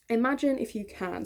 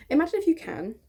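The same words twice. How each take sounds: First: Said in the usual way. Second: "Imagine" launched higher and louder, grand and theatrical; dramatic storyteller opening. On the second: Shown as a demonstration. Inviting viewers into her childhood story, theatrical. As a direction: sweep them into the story like a fairy tale.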